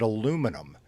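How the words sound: It is said with four syllables, American style. The speaker calls it wrong. "In America, we pronounce it aluminum"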